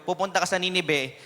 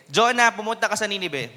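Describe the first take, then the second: First: Said in the usual way. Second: Higher, louder calling voice; booming command sent to Jonah; raised voice. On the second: Shown as a demonstration. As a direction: call it out to wake everyone up. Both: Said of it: "Medyo lalakas ako yung boses ko".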